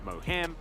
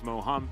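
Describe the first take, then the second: First: The name is said with English-style sounds. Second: The name is said with Korean-style sounds. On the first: The speaker calls it wrong. "we're not pronouncing it Moham" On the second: The speaker calls it right. "It's Moham because it's a Korean word"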